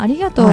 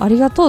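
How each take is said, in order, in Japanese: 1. 標準的な東京のピッチイントネーションを使っています。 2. 関西方言のピッチイントネーションを使っています。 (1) "普通に標準語だとまあそのままじゃないですか" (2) "関西だとありがとうって言うんですよ"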